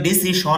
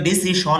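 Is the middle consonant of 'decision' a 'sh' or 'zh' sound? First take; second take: sh; sh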